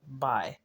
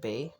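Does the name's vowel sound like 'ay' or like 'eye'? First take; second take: eye; ay. First: The name is said with an 'eye' vowel. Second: The name is said with an 'ay' vowel. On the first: "he pronounced it by" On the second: "instead of bay"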